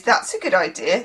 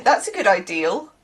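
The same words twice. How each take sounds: First: Said in the usual way. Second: "ideal" for idea, ending in an L; added L ending. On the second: Shown as a demonstration. Contrasting with the usual word, L added on "ideal". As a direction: tack a Bristol L onto "ideal". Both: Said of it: "people like to say on the ends of words".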